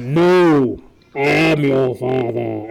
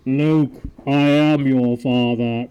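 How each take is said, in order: First: Slow, loud Vader voice through a cup; correct Vader line. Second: Slow, loud Vader voice through a cup; wrong Vader line. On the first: Host giving the real quote as Vader, slow and loud. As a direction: deliver it heavy and slow, villain reveal. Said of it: "And then Luke goes". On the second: Host showing the misquote as Vader, slow and loud. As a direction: boom it out slowly like Vader. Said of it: "That's the wrong". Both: Shown as a demonstration.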